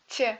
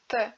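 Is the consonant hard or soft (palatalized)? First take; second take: soft; hard. First: The consonant is soft, tongue near palate. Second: The consonant is hard, tongue at front teeth. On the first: "dans le deuxième cas, la langue se rapproche du palais" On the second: "dans le premier cas, la langue touche les deux dents de devant"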